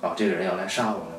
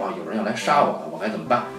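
First: It sounds faintly, nostalgically happy. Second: It sounds anxious and worried.

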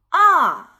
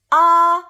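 First: The pitch falls sharply from high to low. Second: The pitch stays high and level. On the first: "5 到1 的去声" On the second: "5 到5 的阴平"

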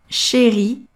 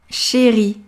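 No difference in how they are said.

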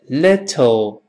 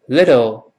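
First: The word is said slowly and carefully. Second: The word is said quickly, the t softened. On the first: "读慢一点" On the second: "读快一点"

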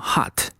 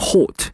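First: The vowel is an open 'ah' sound. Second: The vowel is a rounded 'o' sound. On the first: "在美式中呢我们直接把它读成hot" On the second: "在英式英语中呢我们读成hot"

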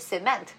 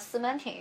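First: It is said the English way. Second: It is said the Shanghainese way.

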